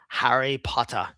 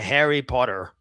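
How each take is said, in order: First: It is said in a British accent. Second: It is said in an American accent. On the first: "a British guy saying it" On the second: "Very American"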